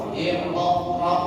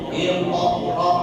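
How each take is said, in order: The two takes are said the same way.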